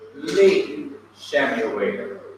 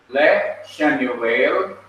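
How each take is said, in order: First: The prefix has a clear 'i' vowel. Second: The prefix has a short murmured 'e' vowel. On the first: The speaker calls it right. "The Shawa under le is changed to a Harik" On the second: The speaker calls it wrong. "two Shawas cannot stand together"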